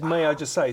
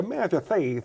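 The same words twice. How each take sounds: First: Said in the usual way. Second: Lisping, mannered boxer impression; Chris Eubank. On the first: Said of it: "my one with Chris Eubank was always". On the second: Impressionist showing his way into the boxer, lisping impression. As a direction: slip into the boxer's lisped delivery. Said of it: "So I'd always go".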